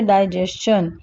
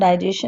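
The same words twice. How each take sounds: First: The ending is said as 'schun' with a t. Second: The ending is said as a plain 'shun'. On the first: The speaker calls it right. "We से डाइजेशन" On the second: The speaker calls it wrong. "इसको हम डाइजेशन नहीं बोलते हैं, it is wrong pronunciation"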